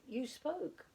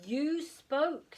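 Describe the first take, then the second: First: Put-on high child's "spoke" with a falling tune; plain insistence. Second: Much higher, louder "You" hammered home; insistent. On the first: Plop tells his father he heard him, plain insistence. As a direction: state it simply. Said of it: "You spoke," said Plop". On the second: Acted. Plop insists to his sleeping father, loud and high. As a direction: push "You spoke" harder this time. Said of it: "said Plop".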